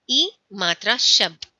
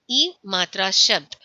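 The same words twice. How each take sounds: The two takes are said the same way.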